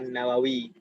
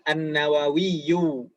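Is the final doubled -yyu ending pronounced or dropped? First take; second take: dropped; pronounced. First: The word ends plainly on a long i. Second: The word ends with a doubled y and vowel. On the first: This is the everyday reading without the last vowel. "harokat terakhirnya nggak dibaca jadi An-Nawawi" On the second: This is the full reading with every vowel. "aslinya seperti itu kalau dibaca semuanya"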